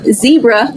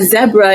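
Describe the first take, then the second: First: It is said with an American pronunciation. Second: It is said with a British pronunciation.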